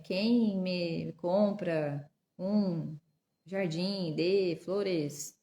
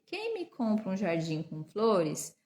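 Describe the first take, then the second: First: Very slow, word-by-word sounding out; laboured, drawn-out beginner reading; halting child reading. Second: Measured, connected read-aloud; clear, unbroken reading at an unhurried pace; fluent reading. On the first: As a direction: read like a beginner, dragging each word with gaps. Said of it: "com a criança lendo". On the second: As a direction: read the whole sentence in one smooth flow. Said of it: "pra que a leitura seja fluida". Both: Shown as a demonstration.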